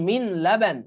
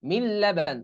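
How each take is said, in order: First: Said in the usual way. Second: মিন লাবান said mil-laban; মিন লাবান with a doubled l, no n; silent nun. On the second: Shown as a demonstration. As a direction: merge the n of মিন fully into the l of লাবান. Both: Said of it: "এই নুন উচ্চারণ হবে না".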